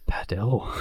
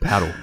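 First: The stress falls on the final syllable. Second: The stress falls on the first syllable.

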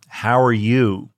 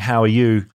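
First: It is said in a put-on American accent. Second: It is said in the speaker's usual non-American accent. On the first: "that's me doing an American accent" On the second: "Instead of just saying"

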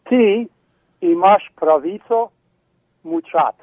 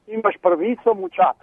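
First: It is said more slowly. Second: It is said at normal speed.

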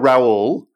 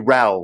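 First: The name is said with an American pronunciation. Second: The name is said as one syllable, like 'Rahl'. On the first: This is how Americans say the name. "Americans are Raul" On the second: This is how English people say the name. "English people tend to call me Raul, like R-A-L"

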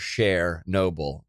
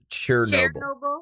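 First: The first syllable sounds like the name Cher. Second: The first syllable does not sound like Cher. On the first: The speaker calls it wrong. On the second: The speaker calls it right.

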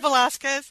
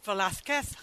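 First: The z is said as an s sound. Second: The z is said as a th sound. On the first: This is the way the speaker expected it to be said. "instead of Velázquez" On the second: This is the Castilian Spanish way of saying it. "every time she said Velázquez"

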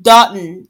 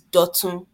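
First: The name is given an Americanized pronunciation. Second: The name is given its original, non-American pronunciation. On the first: The speaker calls it wrong. "I know everyone keeps calling him Dutton" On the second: The speaker calls it right. "the way we pronounce it is Dutton"

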